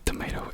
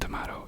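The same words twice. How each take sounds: First: Tomato is said with an American pronunciation. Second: Tomato is said with a British pronunciation. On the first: "Tomato is is American" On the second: "tomato is is British"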